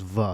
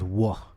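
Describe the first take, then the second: First: The word begins with a v sound. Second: The word begins with a w sound. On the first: The speaker calls it wrong. "it's not pronounced va" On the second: The speaker calls it right. "it's pronounced wa"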